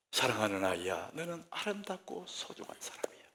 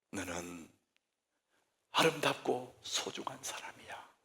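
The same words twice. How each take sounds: First: Soft, much quieter loving words; tender blessing. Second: Soft, breathy whisper of love; whispered blessing. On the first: Preacher models a parent's gentle blessing. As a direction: say it gently to a beloved child. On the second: Preacher models a parent's blessing in a whisper. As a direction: whisper it like a tender promise. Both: Shown as a demonstration. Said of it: "우리 입에".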